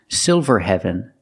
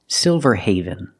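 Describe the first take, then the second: First: The end is said with a short e, like heaven. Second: The end is said with a long a, like haven. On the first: The speaker calls it wrong. "The word is not pronounced Silverhaven" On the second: The speaker calls it right. "it's pronounced Silverhaven"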